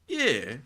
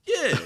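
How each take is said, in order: First: Said in the usual way. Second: Sudden high-pitched yeah; squeaky high yeah. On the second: Real, not acted. Same word, squeaked high.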